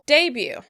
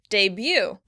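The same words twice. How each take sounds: First: The stress is on the first syllable. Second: The stress is on the second syllable. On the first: This is the British pronunciation. "In British English, the word would be stressed on the first syllable" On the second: This is the American pronunciation. "In American English, the stress would be on the second syllable"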